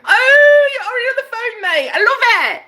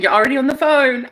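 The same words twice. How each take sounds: First: Very high, hammed-up British squeal; delighted squeal. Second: Said in the usual way. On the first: Squeals at the imagined call.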